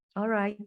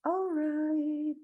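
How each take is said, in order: First: Said in the usual way. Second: High, stretched-out alright; playful sing-song. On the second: Real, not acted. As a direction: draw it out on a held high note. Playful drawn-out repeat of alright.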